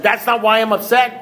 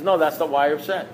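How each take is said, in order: First: High-pitched, incredulous echo; acted-out affronted disbelief; indignant disbelief. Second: Even, unruffled correction; imitating an unbudging, calm sponsor. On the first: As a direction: throw it back as an outraged question. Indignant echo of sponsor's verdict. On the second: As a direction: answer patiently in an ordinary pitch. Sponsor calmly repeats his verdict.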